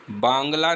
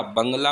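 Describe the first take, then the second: First: बांग्ला with long आ, incorrect; teacher shows the mistaken बांग्ला; wrong form बांग्ला. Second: बंगला with short अ; teacher models the correct बंगला; correct form बंगला. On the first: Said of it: "बांग्ला नहीं होता". (गलत रूप बांग्ला) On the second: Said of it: "बंगला होता है". (सही उच्चारण बंगला) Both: Shown as a demonstration.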